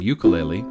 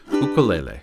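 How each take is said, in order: First: The word is said in the common local pronunciation. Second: The word is said in its traditional pronunciation. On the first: "the way it's most often pronounced in my area" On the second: "I'm using the instrument's traditional pronunciation"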